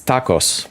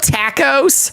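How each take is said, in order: First: The word is pronounced plainly and naturally. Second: The word is pronounced in an exaggerated, put-on way. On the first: This is the ordinary way to say the word. The speaker calls it right. "It's tacos" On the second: It mocks how some people say the word. The speaker calls it wrong.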